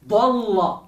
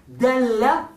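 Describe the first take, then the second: First: "dalla" with heavy d, dark o-like a; emphatic D. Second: "dalla" with light d, front e-like a; soft D. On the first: Teacher showing sound changes meaning, emphatic D in "dalla". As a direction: back and round "dalla" towards dolla. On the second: Teacher showing sound changes meaning, soft D in "dalla". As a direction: keep "dalla" light and forward. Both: Shown as a demonstration. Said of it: "a veces afecta el sentido".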